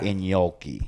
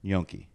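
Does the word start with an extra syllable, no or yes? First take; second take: yes; no. First: An extra syllable comes before the word. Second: The word starts without an extra syllable.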